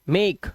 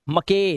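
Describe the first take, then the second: First: The final e is silent. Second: The final e is sounded as an extra vowel. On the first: The speaker calls it right. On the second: The speaker calls it wrong.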